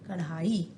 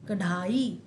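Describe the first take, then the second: The two takes are said the same way.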